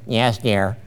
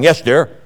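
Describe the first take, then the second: First: It is said softly and meekly. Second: It is said strongly and forcefully. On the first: The speaker submits without argument. The speaker calls it right. "Got to say it that way" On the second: The speaker asserts themselves. The speaker calls it wrong. "Can't say it strong"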